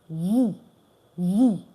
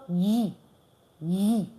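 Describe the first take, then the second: No difference in how they are said.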